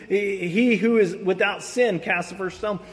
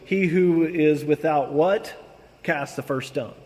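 First: Said in the usual way. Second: Slow, the last word left hanging on a rising "what?"; fill-in-the-blank quiz. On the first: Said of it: "Most people know that saying". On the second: Shown as a demonstration. Preacher quizzing his listeners on the famous phrase, slow and coaxing. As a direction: let the congregation supply the word after "what?". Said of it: "everybody remembers the phrase".

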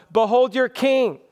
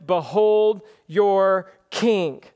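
First: Higher, lightly mocking taunt. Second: Slow, weighty pronouncement; slow solemn reading. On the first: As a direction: toss it out as a jibe at the crowd. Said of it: "effort of Pilate to mock". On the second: Acted. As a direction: spread the words out deliberately. First reading of Pilate's words.

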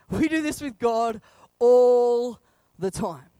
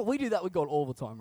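First: "all" drawn out and loud; slow right down and swell on "all"; emphatic repeat. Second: Said in the usual way. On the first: Real, not acted. Preacher driving home what we do with God, slow emphasis on "all".

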